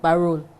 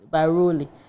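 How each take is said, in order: First: The name ends on an 'l' sound. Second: The name ends with an 'ee' vowel. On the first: This is how Liberians say it. "Liberians they say it Barol" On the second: This is how Ghanaians say it. "Ghana dia you better pronouncing Baroli"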